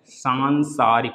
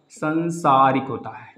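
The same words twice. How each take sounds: First: सांसारिक slowly, with a long सां at the start; correct pronunciation. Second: संसारिक slowly, with a short सं at the start; wrong form. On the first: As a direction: draw out the आ in सांसारिक. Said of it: "आ का मात्रा नहीं लगाया है". (सही उच्चारण: सांसारिक, धीरे, सां को लंबा खींचकर) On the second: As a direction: say संसारिक the mistaken way, without the आ. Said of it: "क्या संसारिक सही है". (गलत रूप: संसारिक, धीरे, बिना आ की मात्रा के) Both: Shown as a demonstration.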